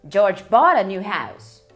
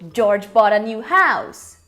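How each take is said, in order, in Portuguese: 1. A palavra bought tem a ênfase mais forte. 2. A palavra house tem a ênfase mais forte. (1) "ele comprou uma casa nova, ele não ganhou" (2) "enfatizando house"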